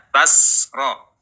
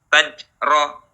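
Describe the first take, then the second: First: The consonant after ta is a voiceless s. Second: The consonant after ta is a j sound. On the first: "tidak dibaca tasro, jangan dialirkan nafasnya" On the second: "jangan berubah menjadi jim"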